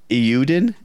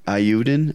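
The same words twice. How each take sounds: First: Eiyuden starting with "ee", as ee-YOO-din; first tentative pronunciation. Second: Eiyuden starting with "eye", as eye-YOO-den; corrected pronunciation. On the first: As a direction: say Eiyuden questioningly with an opening "ee" sound. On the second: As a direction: say Eiyuden with an opening "eye" sound. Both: Shown as a demonstration. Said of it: "That's how you say it".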